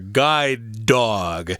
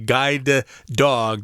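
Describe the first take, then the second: First: The two D sounds are joined into one. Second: Each D sound is said separately. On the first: The speaker calls it right. "you just kind of push those together" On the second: The speaker calls it wrong. "You don't have to say guide dog"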